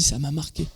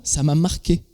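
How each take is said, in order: First: Echoed much softer, letting it sink in; softer repeat. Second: Said in the usual way. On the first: Retold or imitated. Repeating the friend's words to the congregation, much softer. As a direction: drop the voice on the second time. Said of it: "Elle a dit". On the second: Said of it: "c'est elle qui a dit ce mot".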